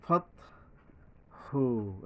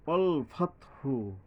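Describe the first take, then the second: First: ফাতহু with the হা held very long; ফাতহু chanted long. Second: ফাতহু with a long drawn হা; ফাতহু slow and drawn. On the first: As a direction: draw ফাতহু out slowly. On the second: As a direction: stretch the হা in ফাতহু. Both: Shown as a demonstration. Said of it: "এই যে লম্বা হা".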